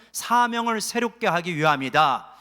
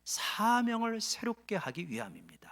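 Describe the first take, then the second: First: Louder repeat-after-me line; preacher leading a responsive repeat; call to repeat. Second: Said in the usual way. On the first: Shown as a demonstration. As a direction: say it out loud for the flock to echo. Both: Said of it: "한번 따라해서".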